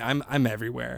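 It is said in a light, busy, cheerful tone. The speaker is busy and travelling a lot. "I'm doing so many gigs. I'm touring. I'm traveling to visit family"

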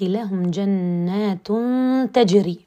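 The reciter pauses after the word tajri. The gardens themselves seem to be flowing. The speaker calls it wrong. "وأقف وأقول جنات تجري من تحتها الأنهار"

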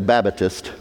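The word is said with three syllables. "if they're from down south, they'll say Babatist. I don't know where they get the extra syllable"

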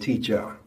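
The word is said in a Jamaican accent. "we say teacher"

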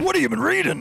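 It is said in a put-on merchant voice.

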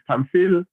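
The name is said the French way.

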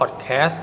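The word is said in an American accent. "เป็นสำเนียงอเมริกัน"

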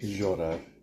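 The double L has a buzzy 'zh'-like sound. This is how people from the grandmother's region say it. "that's the where we say the je for the two words"

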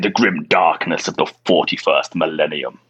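It is said in a grand, dramatic narrator voice.

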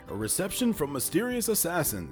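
The voice falls at the end like a statement.

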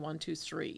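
It is said with a Dutchified Amish accent.

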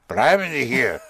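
It ends with a falling command intonation.

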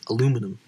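It uses the American pronunciation. "how Americans say it"

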